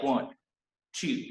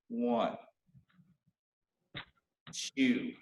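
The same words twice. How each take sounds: First: The numbers are counted quickly, close together. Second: The numbers are counted slowly, drawn out. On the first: The speaker calls it wrong. "don't go like" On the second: The speaker calls it right. "go like more like"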